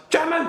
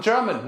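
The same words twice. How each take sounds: First: Exaggerated German accent, pitched way up; hard German accent. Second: Said in the usual way. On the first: Shown as a demonstration. Comedian showing the difference from a nice German, exaggerated German accent. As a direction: bark it in a hammed-up German accent. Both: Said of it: "The difference".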